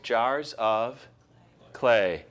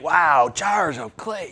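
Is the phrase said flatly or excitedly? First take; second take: flatly; excitedly. First: The phrase is said in a flat, plain way. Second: The phrase is said in an excited, lively way. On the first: "Doesn't sound exciting, does it?" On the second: "It's not like, wow, jars of clay"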